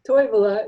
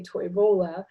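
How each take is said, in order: First: "Toivola" with TOI hit loudly; first-syllable stress. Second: "Toivola" stressed on the middle syllable; "Toivola" as toi-VO-la; shifted stress. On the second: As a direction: move the weight to VO in "Toivola". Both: Shown as a demonstration. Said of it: "you hear that switch".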